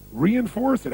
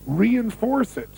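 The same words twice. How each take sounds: First: Reinforce stressed and falling, a bit quicker; repeated emphasis. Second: Reinforce said slowly and drawn out, falling; slow emphasis. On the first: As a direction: hammer reinforce home again. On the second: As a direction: stretch out reinforce. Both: Shown as a demonstration.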